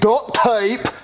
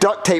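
First: It is said in a British-sounding accent. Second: It is said in an American accent. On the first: "why are you saying it like you're British?" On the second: "in an American accent"

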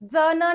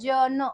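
First: The first consonant is dental, like dz. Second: The first consonant is palatal, like English j. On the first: The speaker calls it wrong. "जन नाहीये हा" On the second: The speaker calls it right. "हा आहे आपला जन, ... शेवटी य चा उच्चार केलाय म्हणून ज म्हणजे आपला आला तालव्य"

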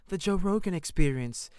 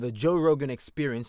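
First: It is said in a put-on imitated voice. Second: It is said in the speaker's normal voice.

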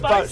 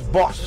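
First: The vowel is long, rhyming with 'dose'. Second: The vowel is short, rhyming with 'loss'. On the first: The speaker calls it right. "but it's Bose" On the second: The speaker calls it wrong. "I think it's Boss"

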